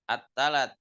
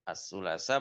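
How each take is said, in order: First: The word begins with a t sound. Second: The word begins with an s-like sound. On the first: This is the colloquial form. "Sulasanya jadi talat, sa-nya jadi ta" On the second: This is the original standard form. "Asalnya ittalat as-sulasa"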